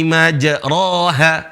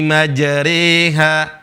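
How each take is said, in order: First: The middle vowel is an open a. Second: The middle vowel is bent toward an e. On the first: This is how the normal rule would read it. "Harusnya dibaca ro" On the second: This is the special reading used in this verse. "Di sini dibaca bismillahi majriha, reha"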